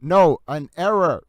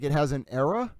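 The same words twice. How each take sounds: First: "an error" said slower and louder, Boston style with a dropped final r; correcting error. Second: "error" heard as "an error", puzzled rising question; mishearing error. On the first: Shown as a demonstration. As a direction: firmly correct them with "an error" in a Boston accent. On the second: Retold or imitated. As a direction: ask "It has an error?" in a puzzled rise, as if mishearing "error". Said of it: "They'd be like".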